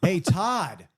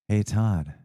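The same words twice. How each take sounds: First: It is said in a plain, ordinary way. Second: It is said in a low, sultry way.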